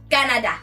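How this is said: It is said boldly in a Cameroonian accent. "Cameroons will specify each word and actually say them boldly"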